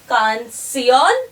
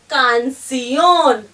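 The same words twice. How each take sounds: First: The stress is not on the last syllable. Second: The stress is on the last syllable.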